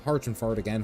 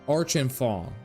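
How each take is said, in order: First: The name starts with an H sound. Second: The name starts without an H sound.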